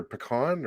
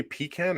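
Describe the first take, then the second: First: "pecan" said puh-KAHN, with a broad "ah". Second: "pecan" said PEE-can, with a short "a" as in "can". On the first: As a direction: say "pecan" with the weight on a long KAHN. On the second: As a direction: say "pecan" with a long EE in the first syllable. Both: Shown as a demonstration. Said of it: "do we say pecan or pecan".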